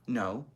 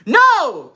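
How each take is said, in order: First: It is said at a normal, quiet volume. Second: It is said in a loud voice.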